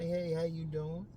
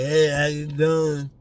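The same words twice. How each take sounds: First: It is said in a calm, relaxed way. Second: It is said in an overeager, drooling way.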